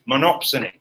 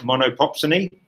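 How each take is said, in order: First: The word has no extra repeated syllable. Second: The word has an extra repeated 'po' syllable. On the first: The speaker calls it right. "no, it's monopsony" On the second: The speaker calls it wrong. "I couldn't pronounce it correctly, so I kept calling it monopopsony"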